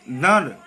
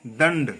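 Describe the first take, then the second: First: दंड louder, as one mis-sounded syllable; wrong pronunciation. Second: दंड lower, with clear n before d; correct pronunciation. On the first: Teacher marking it as incorrect, wrong pronunciation. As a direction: push दंड out hard. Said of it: "अशुद्ध है". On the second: Teacher marking it as correct, correct pronunciation. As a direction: sound the nasal fully in दंड. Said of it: "शुद्ध है". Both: Shown as a demonstration.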